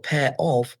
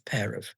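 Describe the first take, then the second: First: The word 'of' is pronounced in full form. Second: The word 'of' is reduced to a weak form. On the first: "we don't usually pronounce prepositions correctly" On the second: "We usually contract them. So pair of becomes"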